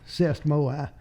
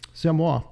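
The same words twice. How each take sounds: First: It is said with a Tennessee accent. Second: It is said with a French accent.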